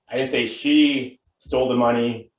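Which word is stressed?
she. The word 'she' carries the main stress. Someone else took it. "Could mean she didn't steal it, but somebody else did"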